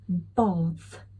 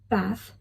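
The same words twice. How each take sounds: First: It is said in a British accent. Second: It is said in a non-British accent.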